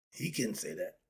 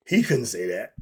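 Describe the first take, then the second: First: Said low and soft, almost to himself; a subdued take, drop the volume; quiet. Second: Louder, with a rising tune on "He couldn't say that"; emphatic. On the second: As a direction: push it out with force, ending upward. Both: Shown as a demonstration. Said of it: "See the difference?".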